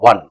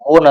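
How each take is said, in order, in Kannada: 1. ಈ ಪದ 'sun' ಜೊತೆ ಪ್ರಾಸ ಆಗುತ್ತೆ, ಸಣ್ಣ ಸ್ವರ ಜೊತೆ. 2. ಈ ಪದ 'bone' ಜೊತೆ ಪ್ರಾಸ ಆಗುತ್ತೆ, ದೀರ್ಘ O ಜೊತೆ. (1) "ಅದು ಒನ್ ಒನ್" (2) "ಓನ್ ಅಲ್ಲ"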